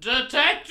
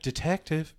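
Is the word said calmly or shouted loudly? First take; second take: shouted; calmly. First: It is shouted loudly, in a high voice. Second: It is said calmly, at normal volume.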